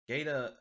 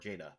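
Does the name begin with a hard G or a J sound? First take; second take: hard G; J sound. First: The name begins with a hard G sound. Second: The name begins with a J sound. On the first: The speaker calls it wrong. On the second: The speaker calls it right.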